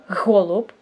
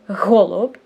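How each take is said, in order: First: The first sound is pushed out with effortful breath. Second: The first sound is pushed out with effortful breath.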